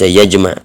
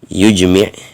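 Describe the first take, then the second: First: The word begins with 'ya', 'a' after mim. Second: The word begins with 'yu', jim unvoweled. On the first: "bi fathil ya wal mim" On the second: "dengan didomahkan yanya, dan disukunkan jimnya"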